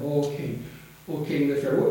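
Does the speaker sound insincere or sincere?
sincere. The greeting sounds warm and sincere. The speaker truly means the good wish. The speaker calls it right. "But Daniel meant it"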